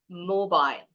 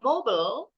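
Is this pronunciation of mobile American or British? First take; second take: British; American. First: It is said with a British accent. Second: It is said with an American accent. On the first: "British English pronunciation call it as mobile" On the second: "is the American English pronunciation"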